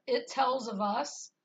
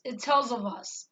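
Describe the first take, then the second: First: "It tells of us" slowly, as distinct words; separate words. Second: "It tells of us" run together as one word; all one word. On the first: Showing how the dream words were not said, separate words. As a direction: say "It tells of us" measured, word after word. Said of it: "instead of "It tells of us". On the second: Showing how the dream words sounded, all one word. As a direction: join "It tells of us" up without gaps, quicker. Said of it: "like it was all one word". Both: Shown as a demonstration.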